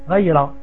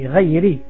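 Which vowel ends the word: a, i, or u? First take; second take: a; i. First: The word ends with an a vowel. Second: The word ends with an i vowel. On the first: The speaker calls it wrong. "c'est pas très grave" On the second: The speaker calls it right. "au lieu de dire Ghayri al-Maghdoubi"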